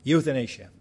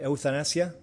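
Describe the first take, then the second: First: Euthanasia said in English, you-thuh-NAY-zhuh, settled and falling; English pronunciation. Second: Euthanasia said the Spanish way, eu-ta-NA-sia, asked with a rising tune; unsure Spanish-style word. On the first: Correcting himself for the congregation, saying Euthanasia in confident English. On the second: Searching for the English word, saying euthanasia Spanish-style with a questioning rise. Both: Shown as a demonstration. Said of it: "what do you call it".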